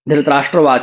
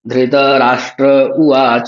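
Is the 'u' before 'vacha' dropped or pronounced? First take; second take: dropped; pronounced. First: The initial u sound of uvacha is dropped. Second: The initial u sound of uvacha is pronounced. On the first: The speaker calls it wrong. "ऊ का उच्चारण बहुत सारे लोग नहीं करते हैं" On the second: The speaker calls it right. "ऊ को भी पढ़ना है"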